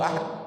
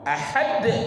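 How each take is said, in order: First: The final d is muted and barely heard. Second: The final d is released with a clear echo. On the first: The speaker calls it wrong. "Tidak boleh Allahu ahad. Nah, tidak, tidak terdengar" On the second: The speaker calls it right. "itu qalqala kubra, qalqala besar. Jadi de-nya itu harus terdengar"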